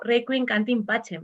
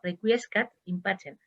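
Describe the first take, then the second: First: It sounds like requiem cantim pacem. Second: It sounds like requiescat in pacem. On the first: The speaker calls it wrong. "el actor dijo algo así como" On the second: The speaker calls it right. "Fijaros cómo se pronuncia"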